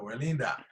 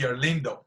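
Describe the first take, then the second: First: The name ends with an 'a' vowel. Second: The name ends with an 'o' vowel. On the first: "actually ends with an O, it sounds like an A. So Erlinda" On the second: "nobody can call me Erlindo"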